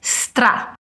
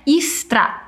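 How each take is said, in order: First: No vowel sound comes before the s. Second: A vowel sound comes before the s. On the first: The speaker calls it right. "Note como não tem um som de vogal antes" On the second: The speaker calls it wrong. "não é istra"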